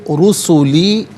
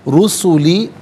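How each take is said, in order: The two takes are said the same way.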